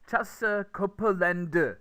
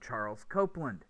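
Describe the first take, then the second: First: Korean-style, with extra syllables and no R or Z. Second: English-style, three syllables with R and Z sounds. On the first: The speaker calls it wrong. "if you say Charles Copeland instead of" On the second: The speaker calls it right. "if that's what they're expecting to hear"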